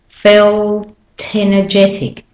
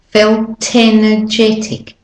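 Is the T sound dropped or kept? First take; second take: kept; kept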